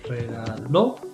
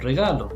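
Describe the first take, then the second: First: The stress falls on the last syllable. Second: The stress falls before the last syllable. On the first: "stress on the last syllable" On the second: "otherwise she's saying regalo"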